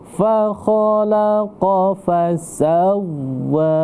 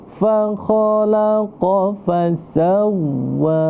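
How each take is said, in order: Both takes have the same delivery.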